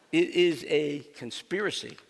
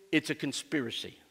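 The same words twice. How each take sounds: First: Louder, deliberate "It is", each word set apart; emphatic restatement. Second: Said in the usual way. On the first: Real, not acted. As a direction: stress on IS, spelled out as a full word. Emphatic restatement of his claim.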